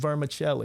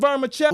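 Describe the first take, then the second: First: The word is said quietly and mumbled. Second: The word is said loudly and clearly. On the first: The speaker does not really want to be heard. The speaker calls it wrong. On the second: The speaker clearly wants to be heard. The speaker calls it right.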